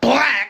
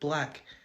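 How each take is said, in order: First: The word is said forcefully and intensely. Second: The word is said casually and softly.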